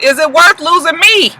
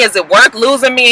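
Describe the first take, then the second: First: High, incredulous echo of her question; mocking boyfriend retort. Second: Lightly acted girlfriend's earnest question; imitating nagging girlfriend. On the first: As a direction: throw her question back, mock-outraged. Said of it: "And he was just like". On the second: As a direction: ask it as the girlfriend, only mildly dramatized. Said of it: "she's going on and on talking about".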